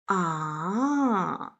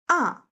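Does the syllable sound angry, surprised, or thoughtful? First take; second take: thoughtful; angry. First: The pitch falls, then rises, sounding thoughtful. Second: The pitch falls sharply, sounding angry. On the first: "well, thinking sound. / falling down and then rising up" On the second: "no, angry sound. / falling down sharply"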